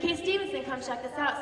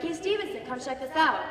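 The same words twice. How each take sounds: First: Calling out again. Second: High, loud call to a friend. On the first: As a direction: call him over once more. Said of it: "He's like". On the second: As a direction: call him over across the deck. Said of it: "my friend yells to me". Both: Retold or imitated.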